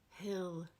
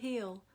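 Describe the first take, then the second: First: The vowel is short and lax, as in 'hit'. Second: The vowel is tense, sounding like 'heel'.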